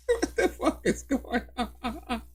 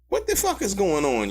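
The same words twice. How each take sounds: First: Slow and softer, laughing through the words; can't believe it, laugh it out; What the fuck is going on said slowly through laughter; laughing disbelief. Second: Said in the usual way. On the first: Real, not acted. Repeats it, breaking into laughter.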